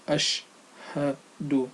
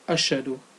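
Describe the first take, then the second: First: The sh and h sounds are said separately. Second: The sh and h sounds run together. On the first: The speaker calls it right. "should be recited separately as ashhadu" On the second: The speaker calls it wrong. "not altogether as ashadu"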